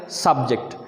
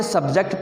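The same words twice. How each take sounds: First: subject as "SUB-ject", the noun; stressed open sub, light ject in subject; stress on first syllable. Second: subject as "sub-JECT", the verb; weak sub, stressed ject in subject; stress on second syllable. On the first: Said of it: "stress आएगा पहले हिस्से पे". (Subject में पहले हिस्से पे stress) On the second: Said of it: "subject पढ़ोगे तो ये वर्ब". (सब्जेक्ट में दूसरे हिस्से पे stress) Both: Shown as a demonstration.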